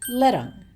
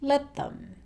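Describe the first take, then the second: First: Them is reduced to 'em and linked. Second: The word them is said in full.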